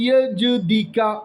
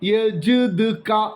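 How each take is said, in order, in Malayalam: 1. yaj-di-ka എന്നാണ് പറയുന്നത്, d ന് ശേഷം i ഉണ്ട്. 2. yaj-du-ka എന്നാണ് പറയുന്നത്, j ന് ശേഷം സ്വരമില്ല. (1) "ദാലിനെ കസറാക്കും, ജീമിനെ സുക്കൂനാക്കിയിട്ട്" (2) "ജീമും ദാലും സുക്കൂനായിട്ട് ഉച്ചരിക്കപ്പെടും"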